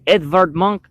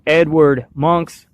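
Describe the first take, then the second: First: The name is said unanglicized, with a V sound. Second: The name is said the English way, with W.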